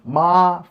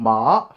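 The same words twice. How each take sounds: First: The pitch stays high and level. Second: The pitch rises from middle to high. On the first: "first tone ma five five" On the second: "second tone ma two five"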